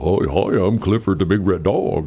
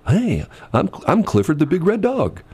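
First: It is said in a goofy cartoon voice. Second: It is said in a plain natural voice.

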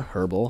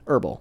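First: The word begins with an audible H sound. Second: The word begins with a silent H. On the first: The speaker calls it wrong. "Didn't mean to pronounce the H" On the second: The speaker calls it right.

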